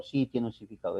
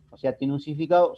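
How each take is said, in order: First: "tiene un significado" stated with a low falling tune, softer; confirming answer. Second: "¿tiene un significado?" asked as a question, rising at the end; asking tune. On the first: (respuesta afirmativa con tono descendente en "tiene un significado") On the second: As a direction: pose "tiene un significado" as a real query to the class. (tono de pregunta en "¿tiene un significado?") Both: Shown as a demonstration.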